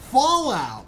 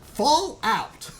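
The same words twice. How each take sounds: First: It is said smoothly as one single word. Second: It is said as two clearly separated words. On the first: "like a single term" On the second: "like the two words like very distinctly"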